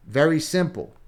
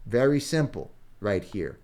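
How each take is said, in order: First: "very simple" said higher and louder, punching "very"; emphatic very simple. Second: Said in the usual way. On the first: Real, not acted. Coach stressing to viewers how simple the page is, emphatic. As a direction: hit "very" hard, selling how easy it is.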